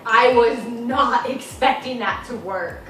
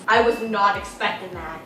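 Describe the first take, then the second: First: Slow down and lean on "not"; slow emphatic surprise. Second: Said in the usual way. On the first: Real, not acted. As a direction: draw out "not" in slow disbelief. Repeats the surprise more emphatically.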